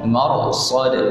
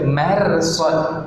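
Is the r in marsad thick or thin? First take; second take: thick; thin. First: The r in mar is thick and heavy. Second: The r in mar is thin and light. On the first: The speaker calls it right. "mar bunyinya tu tebal" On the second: The speaker calls it wrong. "tak boleh baca marsad"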